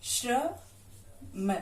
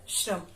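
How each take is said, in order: First: श्रम stretched very slowly; drawn out slowly. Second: Said in the usual way. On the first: Shown as a demonstration. Teacher drawing out श्रम for pupils to repeat. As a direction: sound out श्रम slowly for the class. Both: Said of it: "और दूसरा हो गया".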